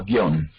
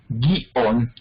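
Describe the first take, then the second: First: Guión as one syllable, io glided; diphthong. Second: Guión in two slow syllables, gui-ón; hiatus. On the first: Teacher showing both possibilities, guión in one syllable. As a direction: say guión run together as gión. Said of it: "o no la acentuamos". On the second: Teacher showing both possibilities, guión split as gui-ón. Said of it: "¿Acentuamos la I o no la". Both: Shown as a demonstration.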